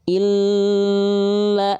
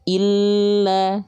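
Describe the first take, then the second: First: The doubled L is held long, drifting nasal. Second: The doubled L is pressed briefly, not held. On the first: The speaker calls it wrong. "nggak dibaca gini" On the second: The speaker calls it right. "cukup l-nya aja"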